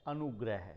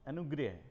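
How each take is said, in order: First: अनुग्रह with open a, "anu-grah"; correct pronunciation. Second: अनुग्रह as "anu-greh", with an ri sound; wrong pronunciation. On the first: Teacher gives students the correct form, correct pronunciation. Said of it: "जबकि शुद्ध है". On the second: Teacher repeats the faulty form before correcting it, wrong pronunciation. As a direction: mispronounce अनुग्रह as "anu-grih". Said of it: "री की मात्रा आ रही है". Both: Shown as a demonstration.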